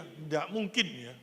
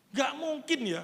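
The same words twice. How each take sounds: First: Slow, lower, deliberate restatement; slow low repeat. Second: Raised high and loud, a firm no; emphatic denial. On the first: (diulang pelan dan rendah) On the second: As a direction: push it out high and strong. (penolakan tegas, lebih tinggi dan keras) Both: Shown as a demonstration.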